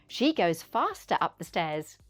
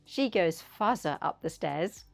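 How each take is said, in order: First: The T in faster is pronounced. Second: The T in faster is dropped. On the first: The speaker calls it right. "say the T sound" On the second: The speaker calls it wrong. "Don't say"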